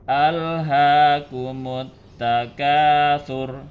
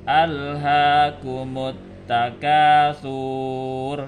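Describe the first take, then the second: First: The last syllable's vowel is kept short. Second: The last syllable's vowel is drawn out long. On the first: The speaker calls it right. "Yang betul dibaca pendek" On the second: The speaker calls it wrong. "jangan membacanya panjang ... salah itu"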